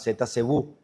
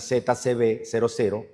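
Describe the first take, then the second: First: The ending is read as a ghostly 'oo'. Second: The ending is read as two spoken zeros. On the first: "tiendo a pronunciarlo como el fantasma" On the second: "se denomina Z C B cero cero"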